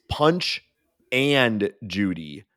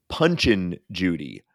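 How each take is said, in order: First: The middle word 'and' is clearly pronounced. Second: The middle word is reduced, like 'punchin'. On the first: The speaker calls it right. "It's Punch and Judy hitter" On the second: The speaker calls it wrong. "it's not Punchin' Judy"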